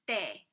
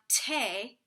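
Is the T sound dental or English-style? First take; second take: dental; English-style. First: The T is softened with the tongue on teeth. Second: The T is a crisp English-style T. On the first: The speaker calls it right. "It's called a dental T" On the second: The speaker calls it wrong. "It's not te"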